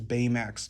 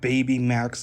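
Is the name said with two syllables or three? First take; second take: two; three. First: The name is said with two syllables. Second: The name is said with three syllables. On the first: The speaker calls it right. "it's Baymax" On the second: The speaker calls it wrong. "It's not Baby Max"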